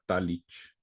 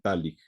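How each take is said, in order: First: The name ends with a soft 'ch' sound. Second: The name ends with a hard 'k' sound. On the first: The speaker calls it wrong. "También a veces se le pronuncia Talich" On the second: The speaker calls it right. "es más bien Talik"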